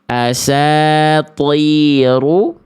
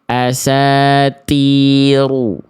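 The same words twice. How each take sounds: First: The t is thick, with the tongue root raised. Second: The t is thin, with the tongue root lowered. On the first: The speaker calls it right. "Yang tepat insya Allah adalah yang yang A" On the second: The speaker calls it wrong. "Yang B salah karena berubah jadi huruf ta"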